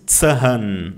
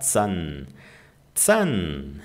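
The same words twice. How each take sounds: First: ZAHN with the H sounded aloud, split in two; wrong pronunciation. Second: ZAHN as one syllable with a long A; long vowel. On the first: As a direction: say Zahn as "tsa-han", H voiced. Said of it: "Você não diz Zahn". (Zahn com o H pronunciado, "tsa-hán") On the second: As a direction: stretch the A in Zahn, silent H. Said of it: "Ele só estica a letra A". (Zahn com A esticado, H mudo) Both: Shown as a demonstration.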